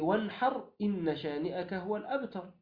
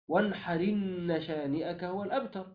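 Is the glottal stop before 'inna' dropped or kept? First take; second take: kept; dropped. First: The glottal stop before inna is kept. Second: The glottal stop drops; its vowel joins the r.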